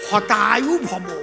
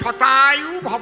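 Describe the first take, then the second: First: The first word begins with an h sound. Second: The first word begins with a sh sound. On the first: May your life be cut short. The speaker calls it wrong. "স্বছাতা তো উচ্চারণ হয় না, যেই প্রণাম দেশে উনি কয় হতায়ু ভব" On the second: May you live a hundred years. The speaker calls it right. "মানে আশীর্বাদ হবে শতায়ু ভব"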